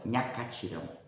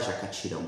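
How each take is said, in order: First: The word begins with an NH sound. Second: The word begins with a clear J sound. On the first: "minha mãe fala Nhacatirão" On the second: This is how most people say it. "como todos falam"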